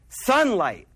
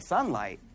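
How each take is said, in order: First: Said in the usual way. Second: "Sunlight?" much lower and softer, said in disbelief; puzzled echo. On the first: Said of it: "he said". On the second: Retold or imitated. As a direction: echo "Sunlight?" back as if it makes no sense. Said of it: "he's like".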